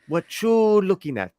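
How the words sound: It is said with a heavy, chewed-up accent.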